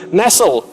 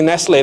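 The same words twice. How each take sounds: First: The name is read the English way. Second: The name is read the common local way. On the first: The speaker calls it right. "dibaca yang benar adalah Nestle" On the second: The speaker calls it wrong. "Kita suka bacanya Nestle"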